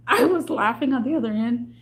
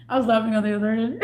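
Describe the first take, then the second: First: Said in the usual way. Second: Fast, with real laughter in it; laughing. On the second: Real, not acted. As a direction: laugh through the words. Retelling a funny call.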